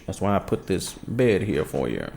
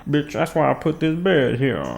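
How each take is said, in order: First: Said in the usual way. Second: Scolding the cat. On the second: Real, not acted. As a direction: yell it at the cat again.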